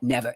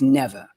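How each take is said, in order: First: It is said with hard, plain R sounds. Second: It is said in a soft New York accent. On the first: The speaker calls it wrong. "It's not never" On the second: The speaker calls it right. "It's a soft New York"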